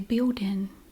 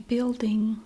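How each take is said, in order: First: The L sounds like W; the final G drops. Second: The L and final G are both clearly pronounced. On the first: "we say building" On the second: "If we don't say building"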